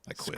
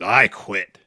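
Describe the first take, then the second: First: It is said in a defeated, deflated voice. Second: It is said in a gruff, intense voice.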